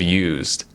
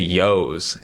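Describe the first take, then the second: First: The word is said like 'used'. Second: The word is said like 'yos'. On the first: The speaker calls it right. "instead of used" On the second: The speaker calls it wrong. "I also used to say yos"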